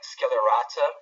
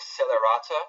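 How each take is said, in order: First: The name begins with an sk sound. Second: The name begins with a plain s sound. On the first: "like an S K" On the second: "or just Celerata"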